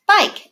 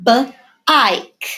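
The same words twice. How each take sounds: First: Bike said whole up high; cheerful whole word after sounding out; blended word. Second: B-ike split after b; sounded out. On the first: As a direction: blend it together high and bright. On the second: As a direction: segment bike into b then ike. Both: Shown as a demonstration. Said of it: "There's that I".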